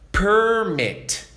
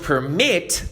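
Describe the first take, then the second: First: The stress is on the first syllable. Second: The stress is on the second syllable.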